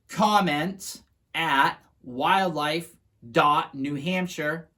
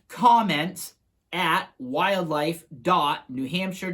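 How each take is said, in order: First: It is said at a slower pace. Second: It is said at a normal, quicker pace.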